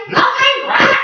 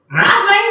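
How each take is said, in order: First: Squeaky, much higher second Nothing?; even more outraged incredulity; rising disbelief. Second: High questioning parrot; can't believe what he hears; disbelief. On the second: Papagayo disbelieving. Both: Acted.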